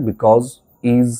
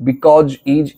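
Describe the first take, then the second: First: Because and is ending in a buzzing z. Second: Because and is ending in "j": "bikoj", "ij". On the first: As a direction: say "bikawz", "iz" for because, is. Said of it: "এগুলো উচ্চারণ করবে". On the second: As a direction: say because and is with a final "j" sound. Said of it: "এই উচ্চারণটা না করে". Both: Shown as a demonstration.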